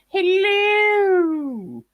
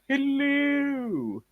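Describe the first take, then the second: First: It is said in a high-pitched voice. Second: It is said in a neutral pitch.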